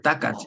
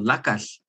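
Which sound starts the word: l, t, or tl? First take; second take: t; l. First: The word begins with a t sound. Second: The word begins with an l sound. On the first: "it's also acceptable just to say T" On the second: "the West Coast varieties that say L instead of that"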